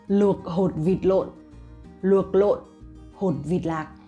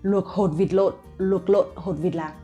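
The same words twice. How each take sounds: First: The phrase is said at a normal pace. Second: The phrase is said at a faster pace.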